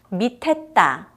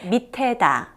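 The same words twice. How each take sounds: First: The final syllable starts with a tense consonant. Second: The final syllable starts with a plain consonant. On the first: "이렇게 발음했죠" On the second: "이게 밑에다 거든요"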